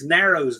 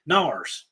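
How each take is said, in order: First: The name is said with two syllables. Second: The name is said with one syllable.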